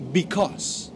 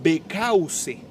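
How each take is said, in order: First: BECAUSE said as "bi-kos"; teacher's careful BECAUSE, "bikós"; correct pronunciation. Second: BECAUSE read as written in Spanish, "be-ca-u-se"; BECAUSE in Spanish letter sounds; spelling pronunciation. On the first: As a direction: model BECAUSE in two syllables, silent final E. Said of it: "pero se pronuncia". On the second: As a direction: sound out every vowel of BECAUSE slowly. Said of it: "Se escribe". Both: Shown as a demonstration.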